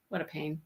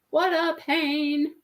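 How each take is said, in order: First: Low, muttered under breath. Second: Slow, drawn-out complaint. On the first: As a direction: grumble it to yourself. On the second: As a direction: stretch it out wearily. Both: Real, not acted.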